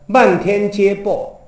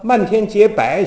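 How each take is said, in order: First: The last syllable is pronounced bo. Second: The last syllable is pronounced bai. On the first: The line rhymes with the next. The speaker calls it right. "白咱不念薄吗？" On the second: The line does not rhyme with the next. The speaker calls it wrong. "没押韵呢，不对"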